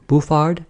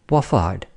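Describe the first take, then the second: First: BOUFFARD with an 'oo' first syllable, questioning; muddled name. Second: BOIFARD slowly, lower, falling at the end; corrected name. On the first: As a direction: try Bouffard, unsure. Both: Acted.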